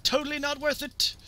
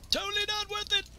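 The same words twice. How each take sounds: First: High-pitched mock lament; playful high exclamation; high comic cry. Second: Very high put-on voice; extremely high, playful lament; squeakier comic cry. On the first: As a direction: call it out high as you go down. Rueful shout while dying in game. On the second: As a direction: push it way up into a silly squeal. Repeats it in higher put-on voice.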